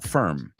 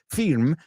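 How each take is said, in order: First: The vowel sounds closer to an 'e'. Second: The vowel sounds like a Spanish 'i'. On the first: The speaker calls it right. "sino firm" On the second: The speaker calls it wrong. "the word is not pron- pronounced firm"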